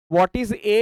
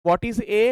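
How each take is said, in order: Both takes have the same delivery.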